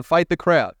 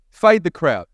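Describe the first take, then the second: First: "Fade the crowd" said firmly, "Fade" stressed; first statement. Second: Louder repeat, "Fade" punched hard. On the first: Preacher giving the congregation a note to write, firmly stated. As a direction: state the motto clearly the first time. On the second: Preacher repeating the note to the congregation, louder and emphatic. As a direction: hammer the motto home. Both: Shown as a demonstration. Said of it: "write this down".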